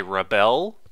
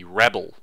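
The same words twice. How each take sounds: First: Rebel as the verb, re-BEL, rising; stress on second syllable. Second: Rebel as REB-el, the noun; stress on first syllable. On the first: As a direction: push the end of rebel upward. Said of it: "it sounds like the verb". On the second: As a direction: hit REB in rebel, then drop. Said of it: "stress is on the first syllable". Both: Shown as a demonstration.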